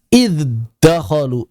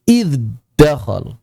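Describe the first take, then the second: No difference in how they are said.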